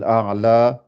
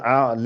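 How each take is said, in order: First: The final vowel is a clear open A. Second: The final vowel is tilted toward an E. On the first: This is the Hafs reading. "avec un A" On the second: This is how some readers from another region say it. "Et eux, ils vont dire a'la"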